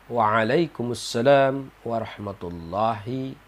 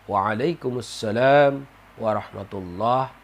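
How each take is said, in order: No difference in how they are said.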